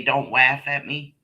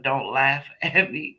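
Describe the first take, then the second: First: "laugh" said with a W, as "waff"; a toddler's W for the L in "laugh"; can't say L. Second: Said in the usual way. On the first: Retold or imitated. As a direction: turn the L of "laugh" into a W. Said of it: "couldn't say the word, the L letter". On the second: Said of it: "instead of".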